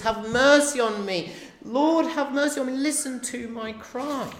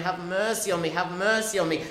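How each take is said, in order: First: Loud, much higher cry for mercy, slowing at the end; desperate cry. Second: Loud repeated plea for mercy, pitch raised; crying out. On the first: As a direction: cry out over the whole crowd. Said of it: "it's annoying the onlookers". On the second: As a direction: beg again and again, louder each time. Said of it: "he cries again and again". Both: Acted.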